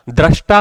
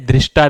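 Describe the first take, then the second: First: दृष्टा said "drashta", with a after dr; correct form "drashta". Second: दृष्टा said "drishta", with i after dr; wrong form "drishta". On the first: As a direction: say दृष्टा with an open "dra". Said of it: "दृष्टा होता है". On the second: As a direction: say दृष्टा with a short "dri". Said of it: "दृष्टा नहीं होता है". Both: Shown as a demonstration.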